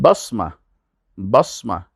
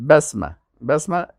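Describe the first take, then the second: First: بسمه with a heavy s, "basma"; بسمه, darkened "bass-ma"; emphatic Sad. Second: بسمه with a light s, "bæsmæ"; بسمه, no heaviness on the s; plain Sin. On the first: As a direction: say بسمه with thick Sad and back vowels, as in بصمة. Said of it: "بساط اینجا بسمه". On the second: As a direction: say بسمه with thin s and front vowels. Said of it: "این کلش سعی کنید تلفظ سینه". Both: Shown as a demonstration.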